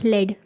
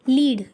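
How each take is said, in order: First: The vowel is a short 'e' sound. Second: The vowel is a long 'ee' sound. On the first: It means the graphite in a pencil. "लेड मतलब जो आपकी pencil की लेड है" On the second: It means to guide or be the leader. "लीड करना किसी चीज़ को है कि आप उस चीज़ के लीडर हो"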